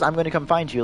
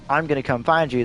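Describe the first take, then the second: First: It is said calmly, without anger. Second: It is said angrily, like a threat. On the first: He is not really threatening anyone. "that's not like an angry" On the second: He is making a real threat. "like an angry"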